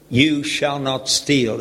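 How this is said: It sounds like a stern command.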